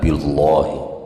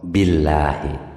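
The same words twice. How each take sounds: First: The l sound is heavy and dark. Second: The l sound is light and thin. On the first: The speaker calls it wrong. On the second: The speaker calls it right. "Tapi kalau setelahnya kasroh itu tarqiq"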